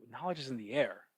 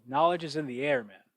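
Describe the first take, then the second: First: Said in the usual way. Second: Put-on light Brazilian Portuguese accent, a bit raised. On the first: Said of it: "What does that even mean?". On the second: Quoting his grappling coach's wisdom, lightly in Brazilian Portuguese accent. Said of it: "you know, Brazilian Portuguese accent".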